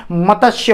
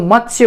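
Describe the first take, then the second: First: "मत्स्य" split as ma-tas-ya; wrong pronunciation. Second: "मत्स्य" as mat-sya, two syllables; correct pronunciation. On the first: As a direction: add an extra vowel between t and s in "मत्स्य". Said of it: "वो गलत उच्चारण होता है". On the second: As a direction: join t and s directly in "मत्स्य". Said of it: "वो मत्स्य उच्चारण होता है". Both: Shown as a demonstration.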